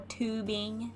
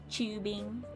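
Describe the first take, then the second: First: The word is said with an American pronunciation. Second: The word is said with a non-American pronunciation. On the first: "as Americans say" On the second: "not tubing"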